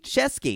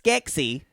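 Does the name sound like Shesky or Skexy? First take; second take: Shesky; Skexy. First: The name is said as Shesky. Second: The name is said as Skexy. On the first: The speaker calls it right. "You pronounce it wrong every time" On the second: The speaker calls it wrong. "Not like"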